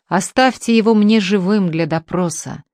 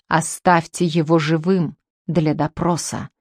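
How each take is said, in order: First: A touch of shouting, stress on его; mild yell. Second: Said in the usual way. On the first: Acted. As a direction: ruft mit Nachdruck, Betonung auf его. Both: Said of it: "вопил Потяшкин".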